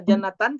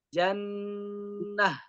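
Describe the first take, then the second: First: The word ends with a t sound and -an. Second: The word ends with a soft h sound. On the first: The speaker calls it wrong. "tidak boleh dibaca jannatan kalau wakaf" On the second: The speaker calls it right. "tapi jannah jannah begitu"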